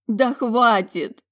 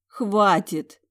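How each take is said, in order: First: Slow, high, loud cry of despair; slow high outburst near tears; exhaled, holding back tears. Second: Short high, louder exhaled plea; brief high exhaled stop. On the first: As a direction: force it out through tears. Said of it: "выдохнула, борясь со слезами". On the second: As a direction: breathe it out, exhausted. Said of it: "выдохнула я". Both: Acted.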